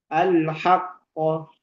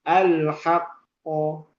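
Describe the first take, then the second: Both takes have the same delivery.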